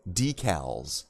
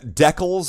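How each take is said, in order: First: The word is said the American way. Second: The word is said the Canadian way. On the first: "definitely the American pronunciation" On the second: "is probably more probably a Canadian thing"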